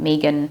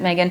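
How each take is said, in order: First: The name is said the non-American way. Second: The name is said the American way.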